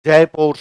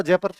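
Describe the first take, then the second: First: जयपुर stretched to "JAE-PORE", loud; anglicised जयपुर, both syllables full and heavy; English mispronunciation. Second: जयपुर as "JAY-pər", short second vowel; old local pronunciation. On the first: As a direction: say जयपुर by its spelling, with a long "pore". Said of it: "वो इसको जयपुर बोलते". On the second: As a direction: say जयपुर the village way, "jepər". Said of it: "अंग्रेजों के आने से पहले हम इसको जयपुर". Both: Shown as a demonstration.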